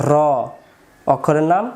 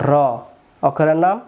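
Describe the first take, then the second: The two takes are said the same way.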